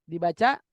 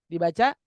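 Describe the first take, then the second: The two takes are said the same way.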